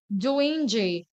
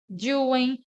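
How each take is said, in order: First: The word ends with a pronounced G sound. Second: The word ends without any G sound. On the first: The speaker calls it wrong. "mas eu não falo doing G" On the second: The speaker calls it right. "Sempre falo trying, doing"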